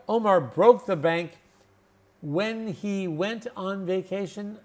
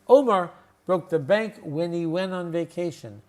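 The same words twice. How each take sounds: First: The h and t sounds are fully pronounced. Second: The h and t sounds are dropped. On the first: The speaker calls it wrong. "No, that's not how we would say that" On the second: The speaker calls it right. "Here's how we would say that"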